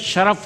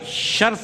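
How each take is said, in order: First: The word is said as two syllables, sharaf. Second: The word is said as one syllable, sharf. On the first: The speaker calls it right. "शरफ़ होता है" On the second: The speaker calls it wrong. "शर्फ़ नहीं होता"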